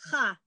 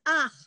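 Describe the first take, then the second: First: The vowel comes after the consonant. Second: The vowel comes before the consonant. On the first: The speaker calls it wrong. "and not ha" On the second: The speaker calls it right. "it's ach"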